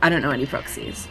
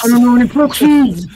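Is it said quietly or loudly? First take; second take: quietly; loudly. First: It is said at a normal, quiet volume. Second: It is said very loudly, right into the microphone.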